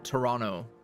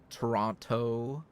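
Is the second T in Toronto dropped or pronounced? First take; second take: dropped; pronounced. First: The second T is dropped. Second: The second T is clearly pronounced. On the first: The speaker calls it right. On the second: The speaker calls it wrong.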